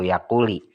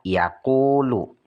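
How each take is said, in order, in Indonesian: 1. Kata ini berakhir dengan vokal i. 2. Kata ini berakhir dengan vokal u. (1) "Tidak benar" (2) "harus dirofakkan, dibaca yaqulu"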